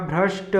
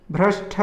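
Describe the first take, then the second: First: भ्रष्ट ending in unaspirated t; no puff ending भ्रष्ट; correct भ्रष्ट. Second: भ्रष्ट ending in aspirated "tha"; wrong भ्रष्ट. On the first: Teacher giving correct form, भ्रष्ट as "bhrasht". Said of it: "ट होगा". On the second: Teacher showing the error, भ्रष्ट as "bhrashtha". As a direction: puff the last t of भ्रष्ट. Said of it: "ठ नहीं होता". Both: Shown as a demonstration.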